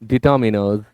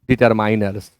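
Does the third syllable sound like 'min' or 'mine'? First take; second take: min; mine. First: The third syllable sounds like 'min'. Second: The third syllable sounds like 'mine'. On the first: The speaker calls it right. "आप पढ़ें डिटर्मिनर्स" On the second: The speaker calls it wrong. "लोगों ने इसे pronounce किया डिटरमाइनर्स, डिटरमाइनर्स। बिल्कुल गलत है।"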